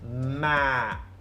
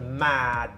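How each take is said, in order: First: The word ends without the final D sound. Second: The word ends with a clear final D sound. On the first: The speaker calls it wrong. "he actually didn't pronounce the D at the end. He just said mm, ad, ma, like that" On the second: The speaker calls it right. "I went mad like that"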